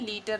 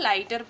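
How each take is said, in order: First: The first vowel sounds like 'ee'. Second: The first vowel sounds like 'eye'. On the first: The speaker calls it wrong. "लीटर नहीं पढ़ते हैं" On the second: The speaker calls it right. "इस वजह से हम इसको लाइटर पढ़ते हैं"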